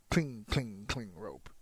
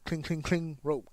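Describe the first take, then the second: First: It is said slowly. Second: It is said fast.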